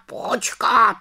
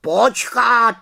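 First: High, falling repeated wait; interrupting raven. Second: High, loud sharp wait; interrupting raven. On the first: Raven Abraxas interrupts a second time, high, falling. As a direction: repeat it more firmly as it falls. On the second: Raven Abraxas interrupts the witch, loud and high. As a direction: cut her off like an alarmed raven. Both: A narrator's reading. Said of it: "skočil jí do řeči Havran".

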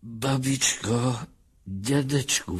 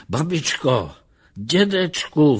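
First: Understated tearful, higher voice; sobbing. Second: High, eager calls to grandparents; calling out. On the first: David reunited with his grandparents, lightly acted sobbing. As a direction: draw the names out through mild sobs. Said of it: "vzlikal David". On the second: Lustig at the door calls for his grandparents, calling out. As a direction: call loudly through a closed door. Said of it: "volal Lustig". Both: A narrator's reading.

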